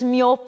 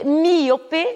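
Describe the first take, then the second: First: The word is said with two syllables. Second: The word is said with three syllables. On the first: This is the Spanish pronunciation. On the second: This is the Portuguese pronunciation.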